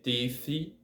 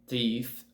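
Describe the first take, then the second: First: An extra vowel follows the final th consonant. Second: The word ends on the final th consonant. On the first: The speaker calls it wrong. "I could say teethy, and then I realize my mistake" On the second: The speaker calls it right. "Instead of teeth"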